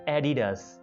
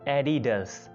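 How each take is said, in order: The two takes are said the same way.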